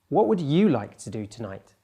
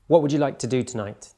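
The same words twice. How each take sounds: First: The word you carries the emphasis. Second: The word do carries the emphasis. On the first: The question is about this listener's wishes rather than another person's. "by shifting my emphasis in my voice to the pronoun you" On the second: The question is about which activity the listener wants. "The emphasis that I'm giving with my voice is on the word do here"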